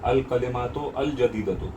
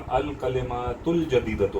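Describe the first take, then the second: First: The second 'al' is said separately with its vowel. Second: The second 'al' is joined to the previous word. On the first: The speaker calls it wrong. "ये ऐसा नहीं होगा" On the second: The speaker calls it right. "ये जब हम मिलाएंगे तो ये क्या हो जाएगा?"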